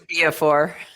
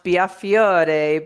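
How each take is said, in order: First: The ending is said as a short for. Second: The ending is said as fee-OR-eh. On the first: This is the changed family pronunciation. "my parents changed it to Biafor" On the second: This is the original family pronunciation. "it's supposed to be pronounced Biafiore"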